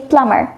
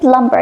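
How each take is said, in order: First: The B sound is silent in the word. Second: The B sound is pronounced in the word. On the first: The speaker calls it right. "without the B sound" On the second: The speaker calls it wrong. "you don't say plumber"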